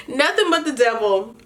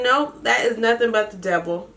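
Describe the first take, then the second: First: Laughing as she says it again; laughing repeat. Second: Said in the usual way. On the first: Real, not acted. Recapping the show, she laughs repeating herself. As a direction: giggle through the repeat of her own line. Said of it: "repeats own line laughing". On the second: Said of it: "first take before laughing repeat".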